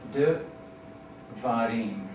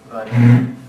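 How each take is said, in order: First: A short vowel follows the first consonant. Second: The first two consonants run together. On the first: The speaker calls it right. "you can count on that being a vocal Shiva" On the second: The speaker calls it wrong. "I'm trying to say it without a vocal Shiva"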